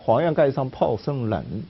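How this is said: The last word is read in Hunan dialect.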